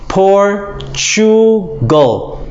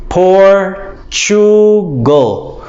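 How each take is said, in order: Both takes have the same delivery.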